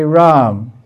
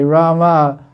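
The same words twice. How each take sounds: First: RAM said as one syllable, final A dropped; silent final A. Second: RAMA said with an audible A after the M; sounded final A. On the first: Teacher showing students the spoken form, RAM with silent A. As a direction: say RAM ending on the M, no vowel after it. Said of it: "it's called dumb". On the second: Teacher contrasting forms for students, RAMA with final A sounded. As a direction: say RAMA in two syllables, ending on an open A. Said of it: "Long A is Sita". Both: Shown as a demonstration.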